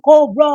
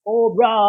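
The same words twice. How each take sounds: First: Full high, loud yell of Cobra; the loudest take of the Cobra cry; Cobra battle cry. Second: High, loud cry of Cobra; a first shout of the Cobra cry; battle cry. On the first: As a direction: scream the name as the troops' war cry. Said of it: "sisigaw yung". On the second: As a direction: yell the name like a rallying call. Names Cobra Commander's logo. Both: Retold or imitated.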